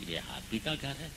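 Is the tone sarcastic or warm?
warm. The tone is warm and welcoming. Make yourself at home. "और दोस्त आया"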